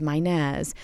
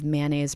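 First: "mayonnaise" said the New Orleans way, as MY-nez; local New Orleans pronunciation. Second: Said in the usual way. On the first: Shown as a demonstration. Linguist quoting T-shirt slogans, "mayonnaise" in local pronunciation MY-nez. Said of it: "mayonnaise pronounced as mayonnaise". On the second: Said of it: "have mayonnaise pronounced as mayonnaise".

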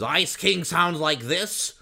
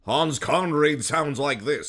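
First: High, loud, slow cartoon king voice; drawn-out nasal cartoon villain; Ice King. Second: High, loud, slow theatrical voice; grand mid-Atlantic stage delivery; Hans Conried. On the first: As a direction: do a pitched-up cartoon impression. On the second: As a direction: declaim like an old theater actor. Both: Shown as a demonstration.

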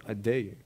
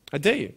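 First: Low, soft "I dare you"; quiet dare. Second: Firm dare. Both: Real, not acted. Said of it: "I dare this school".

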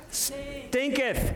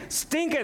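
First: Put-on "Stinketh" drawn out long, with the old -eth ending sounded; King James stinketh. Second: "Stinketh" said short and higher, the -eth clipped; quick King James stinketh. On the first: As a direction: stretch "Stinketh" slowly like a King James reading. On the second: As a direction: pop out "Stinketh" quickly as the punchline. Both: Shown as a demonstration. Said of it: "Come on, there's a King James".

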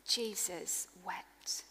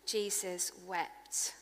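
First: Slow breathy whisper, almost no voice; a reverent hush on the two words; whispered scripture. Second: Soft, slow repeat. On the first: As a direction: hush the room as you say it. Scripture climax read in hush. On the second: Repeated softly after whisper. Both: Acted.

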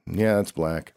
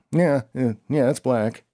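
First: Said in the usual way. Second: A sudden emphatic yeah, yeah; emphatic insistence. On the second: Retold or imitated. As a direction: push the yeahs up, firmly convinced.

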